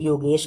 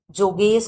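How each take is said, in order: First: "योगेश" with an initial Y sound; Y pronunciation. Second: "जोगेश" with an initial J sound; J pronunciation. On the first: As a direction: start "योगेश" on य, as in yoga. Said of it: "कई लोग योगेश". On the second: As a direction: start "जोगेश" on ज, as in joke. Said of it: "कई लोग जोगेश कहते हैं". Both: Shown as a demonstration.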